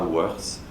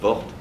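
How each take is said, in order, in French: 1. Le nom est prononcé à l'anglaise. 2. Le nom est prononcé à la française. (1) "on le prononçait à l'anglaise" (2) "son nom à la française"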